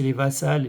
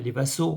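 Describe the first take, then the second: First: "vassals" with a plain -als ending, the wrong plural. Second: "vassaux" ending in the vowel o, the corrected plural. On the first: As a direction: says "vassals" like the singular plus s, a slip. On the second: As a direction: fix it to "vassaux", said clearly. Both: Real, not acted. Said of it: "on dit les vassaux".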